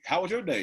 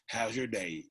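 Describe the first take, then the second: First: It sounds bright and upbeat. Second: It sounds flat and nagging.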